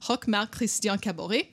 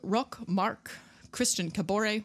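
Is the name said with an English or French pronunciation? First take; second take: French; English. First: The name is said with a French pronunciation. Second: The name is said with an English pronunciation. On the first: The speaker calls it right. "I could say better in French. Hold on" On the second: The speaker calls it wrong. "which I could say better in French"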